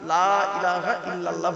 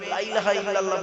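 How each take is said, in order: First: The opening 'la' is stretched out long. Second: The opening 'la' is short and clipped. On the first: There is no deity but God. The speaker calls it right. "লামে একটু লয়াকারে টান দেবেন" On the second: There certainly is a deity besides God. The speaker calls it wrong. "লা ইলাহা ইল্লাল্লাহ বলবেন না"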